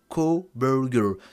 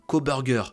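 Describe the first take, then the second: First: The name is said with an American pronunciation. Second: The name is said with a French pronunciation. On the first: "je le dis à l'américaine, parce que c'est comme ça que ça se dit" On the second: "je vais pas le dire comme ça"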